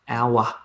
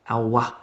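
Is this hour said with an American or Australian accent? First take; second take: Australian; Australian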